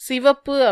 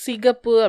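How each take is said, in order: First: The middle consonant is a 'v' sound. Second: The middle consonant is a 'k' sound. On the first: The speaker calls it right. "கரெக்டே" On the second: The speaker calls it wrong. "தவறு"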